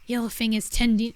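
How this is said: It is spoken in a deep put-on voice. The speaker calls it wrong.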